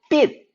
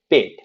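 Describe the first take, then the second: First: The initial b is tense and unvoiced. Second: The initial b is voiced and resonant. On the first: The speaker calls it wrong. "이렇게 쌍비읍으로 완전히 가면 안 됩니다" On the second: The speaker calls it right. "좀 더 많이 울리게"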